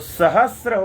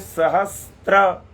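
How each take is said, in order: First: No t sound comes before the final r. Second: A t sound comes before the final r. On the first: The speaker calls it right. "तो सहस्र होता है" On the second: The speaker calls it wrong. "बोल रहे हैं सहस्त्र"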